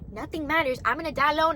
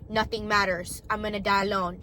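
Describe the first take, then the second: First: It is said in a happy, cheerful tone. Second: It is said in a sad, gloomy tone. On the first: Meaninglessness is felt as freedom. The speaker calls it right. "happy face" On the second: Meaninglessness is felt as despair. The speaker calls it wrong. "sad face"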